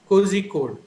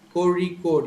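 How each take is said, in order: First: The middle consonant is a plain z sound. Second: The middle consonant is a retroflex r sound. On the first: The speaker calls it wrong. "Most of them who are not aware of this uh, sound will pronounce it as" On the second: The speaker calls it right. "but actually the sound is a Ra"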